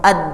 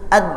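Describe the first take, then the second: First: The final consonant closes abruptly and at once. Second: The same.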